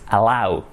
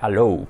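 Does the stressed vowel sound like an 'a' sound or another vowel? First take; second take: a sound; other vowel. First: The stressed vowel starts with an 'a' sound. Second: The stressed vowel is not an 'a' sound. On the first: The speaker calls it right. "No, it's allow, con A" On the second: The speaker calls it wrong. "solía cometer un error y decía allow"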